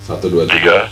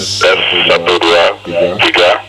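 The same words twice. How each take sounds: First: The voice sounds dry without echo. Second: The voice sounds echoey and loud.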